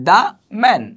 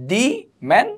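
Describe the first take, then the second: First: The word 'the' is said as 'thuh'. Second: The word 'the' is said as 'thee'. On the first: The speaker calls it right. "তাহলে দা man" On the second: The speaker calls it wrong. "দি man হবে না"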